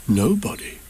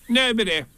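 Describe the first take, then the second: First: Said in the usual way. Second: High, curt denial from hiding; Rabbit. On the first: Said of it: "And he thought to himself". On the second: A narrator's reading. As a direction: answer in a high put-on creature voice. Rabbit denies being at home.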